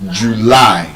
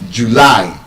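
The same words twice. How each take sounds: First: The stress is on the second syllable. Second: The stress is on the second syllable.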